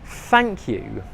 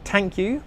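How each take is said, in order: First: It begins with a soft th sound. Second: It begins with a hard t sound. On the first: The speaker calls it right. "the most important word in English, is thank you" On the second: The speaker calls it wrong. "with a T sound"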